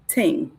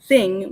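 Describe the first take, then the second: First: The word begins with a plain t sound. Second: The word begins with a th sound. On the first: "we say ting" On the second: "Instead of saying thing"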